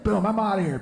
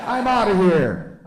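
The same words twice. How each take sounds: First: Quick, emphatic sign-off, pitched up; door-slam exit. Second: Drawn-out, loud, high and falling; slow-closing door exit. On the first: Flip-phone owner hanging up on someone, quick emphatic exit. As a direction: say it briskly, like slamming a door. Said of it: "it's like slamming a door". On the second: Smartphone owner failing to slam the phone, slow drawn-out exit. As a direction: stretch it out like a door that won't slam. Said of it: "screen door with one of those things on it". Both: Acted.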